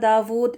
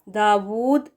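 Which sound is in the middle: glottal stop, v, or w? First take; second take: v; w. First: The middle consonant is a v sound. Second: The middle consonant is a rounded w sound. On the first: The speaker calls it wrong. "वी के साथ पढ़ना दाऊद ये गलत है" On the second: The speaker calls it right. "डब्ल्यू के साथ है वो करेक्ट प्रोनाउंसिएशन है"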